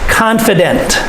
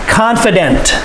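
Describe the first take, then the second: No difference in how they are said.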